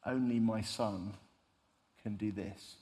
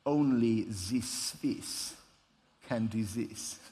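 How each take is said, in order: First: Slow, understated fatherly pride; quiet pride. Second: Put-on slow, self-satisfied Swiss accent; smug Swiss accent. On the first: Retold or imitated. God the Father nodding at his Son, quietly proud. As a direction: lightly voice a proud father, measured and trailing softer. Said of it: "says quite proudly". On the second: Swiss shop owner behind an amazed customer, smug Swiss accent. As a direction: imitate a proud Swiss shopkeeper's accent, drawn out. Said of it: "nodding quite smugly".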